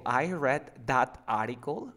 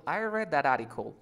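First: Slow, "that" kept apart from "article"; unlinked words. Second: "that article" run together as "darari-col"; linked tap. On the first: Teacher poses the sentence before linking it, words separate. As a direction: say "that article" slowly, as two words. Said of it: "si yo te digo". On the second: Teacher models for the student's turn, linked. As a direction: link "that article" with a tapped t. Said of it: "hay otra forma más". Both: Shown as a demonstration.

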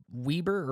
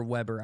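First: "Weber" said as WEE-ber; first vowel of "Weber" as in "weed"; WEE-ber pronunciation. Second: "Weber" said as WEB-er; first vowel of "Weber" as in "web"; WEB-er pronunciation. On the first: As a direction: say "Weber" with a long ee in the first syllable. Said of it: "It's either". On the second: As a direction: say "Weber" with a short e in the first syllable. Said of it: "I think it's Weber". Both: Shown as a demonstration.

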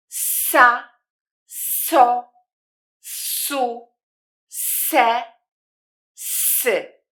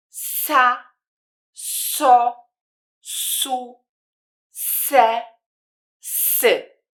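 First: Each syllable separate, with a clear, drawn-out "s" in "Sa, so, su, se, sy"; syllable demo. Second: "Sa, so, su, se, sy" again, with teeth brought together on each hissed "s"; repeat the demo. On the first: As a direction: say "Sa, so, su, se, sy" slowly, hissing the "s" at the start of each syllable. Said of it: "Posłuchajcie i popatrzcie, jak brzmią te sylaby". (wyraźnie syczące „s” na początku sylab „Sa, so, su, se, sy”)

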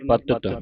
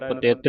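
First: ਪਤਿਤ said as "patat", falling; short middle a. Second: ਪਤਿਤ with an i or e in the middle; wrong middle vowel. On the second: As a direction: say ਪਤਿਤ as "patit". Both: Shown as a demonstration. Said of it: "ਪਤਿਤ ਨਹੀਂ ਪੜ੍ਹਨਾ".

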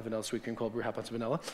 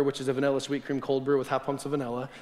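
First: Dictating the order. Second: Said in the usual way. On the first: Shown as a demonstration. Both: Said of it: "write that down".

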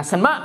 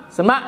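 First: "sanh mớ" said as Chinese shénme, rising end. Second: "sanh mớ" repeated louder and higher, sharp rise on "mớ"; louder Chinese "sanh mớ". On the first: Monk demonstrating Chinese for huh, rising "sanh mớ". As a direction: Chinese word "sanh mớ" with a rising question tune. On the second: Monk repeating Chinese "sanh mớ", louder and rising. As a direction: punch "sanh mớ" up as a real question. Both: Shown as a demonstration. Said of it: "tiếng Trung Hoa gọi là".

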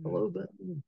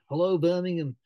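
First: A light repeat of the Brummie hello; mock Birmingham accent, higher. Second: A quick mock Birmingham accent, higher and louder; Brummie accent. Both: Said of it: "he said it in a Brummie accent".

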